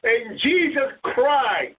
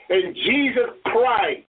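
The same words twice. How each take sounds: First: Slow it right down on Jesus cried; stress on cried. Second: Jesus cried, with cried held slow and falling; stress on cried. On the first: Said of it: "Listen to what it says". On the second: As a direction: lean on cried, slowly. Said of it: "It did not say, it does not say Jesus prayed". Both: Shown as a demonstration.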